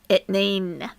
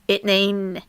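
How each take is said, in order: No difference in how they are said.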